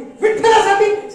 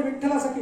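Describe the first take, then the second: First: Slow, high, loud shocked cry of विठ्ठलासाठी?; outraged shout. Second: Said in the usual way. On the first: Retold or imitated. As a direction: bellow the word back in disbelief. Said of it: "आकांड Tandav".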